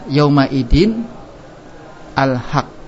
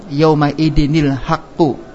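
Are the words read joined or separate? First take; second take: separate; joined. First: The nun stays silent before al-haq. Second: The nun takes an i vowel, joining al-haqq. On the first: "Yang tadinya" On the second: "Ketika dibaca sambung"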